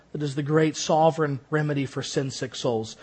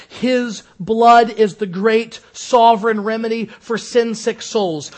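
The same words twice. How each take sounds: First: Said in the usual way. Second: Slow, louder "His blood is the great sovereign remedy for sin-sick souls"; solemn quote. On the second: Shown as a demonstration. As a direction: lean on "blood" and draw it out. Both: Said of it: "as Owen says".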